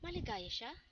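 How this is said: It is said as a question. It asks whether it is so.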